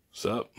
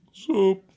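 First: Much lower silly voice; deep voice. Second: Said in the usual way. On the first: Acted. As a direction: drop the pitch way down. Changed voice vs own voice.

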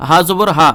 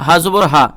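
Both takes have the same delivery.

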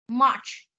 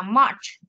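First: Said in the usual way. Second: "March." with the final ch sound clearly popped; final sound released. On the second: Shown as a demonstration. Teacher asking the pupil to sound the final consonant. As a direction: pop the last sound of "March.". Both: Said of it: "Con sẽ bật âm chờ cuối lên cho cô nào".

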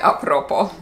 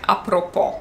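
First: "a propos" stressed on PRO, Polish style; everyday Polish "a propos", accent on the second-to-last syllable; colloquial penultimate stress. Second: "a propos" stressed on the last syllable, POS; "a propos" accented as in French, on its final syllable. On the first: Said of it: "możecie słyszeć bardzo często w Polsce". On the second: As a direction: land the accent on the end of "a propos". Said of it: "zostawiły swoją oryginalną formę po polsku". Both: Shown as a demonstration.

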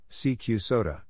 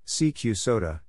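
The two takes are said the same way.

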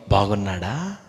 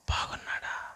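First: Said in the usual way. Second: బాగున్నాడా breathed as a soft whisper; whispered echo. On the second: Shown as a demonstration. Preacher whispering the question back to the congregation.

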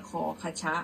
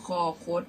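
First: คอคชะ with an extra "cha" syllable; wrong pronunciation. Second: คอคด with final closed "khot"; correct pronunciation. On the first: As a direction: show the mistaken kho-kha-cha reading in คอคชะ. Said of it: "ไม่ใช่คอคชะ". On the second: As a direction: say คอคด as two syllables, kho-khot. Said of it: "อ่านว่าคอคด". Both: Shown as a demonstration.

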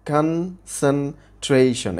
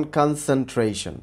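First: concentration said very slowly in four separate syllables; broken into syllables. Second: Said in the usual way. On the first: Shown as a demonstration. Teacher showing students four syllables, concentration slowly split syllable by syllable. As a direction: split concentration as kan, sen, trei, shon, with gaps. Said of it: "ভাগ করে উচ্চারণ করতে হবে". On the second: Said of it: "চারটা syllable আছে".

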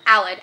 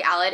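First: Aled said louder with a falling, pressed tone; emphasized name. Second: Said in the usual way. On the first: Retold or imitated. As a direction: lean on Aled, pleading. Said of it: "like, italicized Aled". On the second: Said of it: "not even just, like, Aled".

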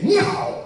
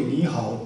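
First: Much higher and louder ニーハオ with sharp rise and fall; 高低差をはっきり. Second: Said in the usual way. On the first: Shown as a demonstration. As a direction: exaggerate the tones on ニーハオ, high and bright. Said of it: "はっきりと上と下の差をはっきりとつけて". (ニーハオの上げ下げをはっきり大きく) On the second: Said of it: "このぐらいの声で「ニーハオ」って言っても、これ伝わらない".

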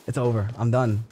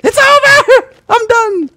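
First: Said in the usual way. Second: Very high, very loud shriek; despairing scream. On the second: Real, not acted. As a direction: scream in utter defeat. Screamed, then repeated calmly.

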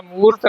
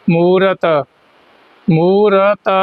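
First: ਮੂਰਤ squashed quickly to "moort"; wrong merged ending. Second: ਮੂਰਤ as "moo-rat", syllables apart; clear final consonant. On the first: Teacher warning learners of the mistake, hurried mispronunciation. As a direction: drop the second vowel of ਮੂਰਤ. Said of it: "ਨਹੀਂ ਕਹਿਣਾ". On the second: Teacher modelling for learners, careful pronunciation. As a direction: give ਮੂਰਤ a full second syllable and clean t. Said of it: "ਤੱਤਾ ਪਿਛਲਾ ਸ਼ੁੱਧ ਬੋਲਣਾ ਹੈ". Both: Shown as a demonstration.

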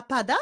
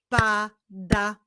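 First: Said in the usual way. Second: "Pada" as pa, pause, da; "Pada" syllable by syllable; split into syllables. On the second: Shown as a demonstration. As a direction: clap out "Pada" in two beats. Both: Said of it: "Wyklaszczmy sylaby w tych wyrazach".

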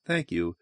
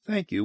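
First: Lower, soft thanks; low thank you. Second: Higher thanks, soft; high thank you. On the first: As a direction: say it low and quiet. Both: Shown as a demonstration.

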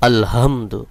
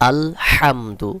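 First: আলহামদু with a plain light h, no throat pressure; quicker আলহামদু, the হ left loose and unpressed; mispronounced soft H. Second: Slow আলহামদু with হা squeezed from mid-throat; pressed throat H. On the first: Teacher shows how most people err, আলহামদু with plain soft h. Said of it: "এটাকে ভুল উচ্চারণ করে". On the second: Teacher shows learners the correct letter, আলহামদু with pressed mid-throat হ. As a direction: press the হ of আলহামদু into a strong pharyngeal H, drawn out. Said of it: "একটু চাপ দিয়ে উচ্চারণ করতে হবে". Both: Shown as a demonstration.

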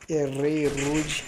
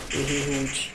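First: Slow emphatic "Errei rude"; drawn out. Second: Said in the usual way. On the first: Real, not acted. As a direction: drag out "Errei rude" in disbelief. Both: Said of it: "Ai, errei".

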